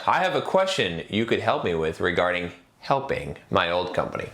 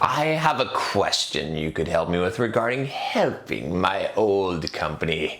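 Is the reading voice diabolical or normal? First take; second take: normal; diabolical. First: It is read in a plain, normal voice. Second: It is read in a sinister, diabolical voice.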